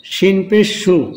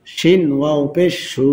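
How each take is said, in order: First: Final সু with a short vowel. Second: Final সু with a long held vowel; one-alif stretch. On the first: Teacher showing learners the quick reading, short final সু. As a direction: cut the last সু short. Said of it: "হরকতের উচ্চারণ তাড়াতাড়ি করতে হয়". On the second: Teacher showing learners the stretch, long final সু. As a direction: draw out the last সু. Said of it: "এখানে এক আলিফ টান হবে". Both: Shown as a demonstration.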